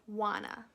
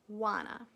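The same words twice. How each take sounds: First: It is reduced and blended into one word. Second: It is reduced and blended into one word.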